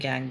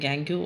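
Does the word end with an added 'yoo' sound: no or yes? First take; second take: no; yes. First: The word ends plainly without a 'yoo' sound. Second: The word ends with an added 'yoo' sound. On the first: "कुछ करते हैं गैंग" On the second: "कुछ लोग इसको pronounce करते हैं गैंग्यू"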